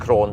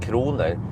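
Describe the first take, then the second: First: The word is shortened to a single syllable. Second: The word is said in full with two syllables. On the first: "that's usually how Thai people pronounce kroner" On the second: "I said kroner and they don't pronounce it like that"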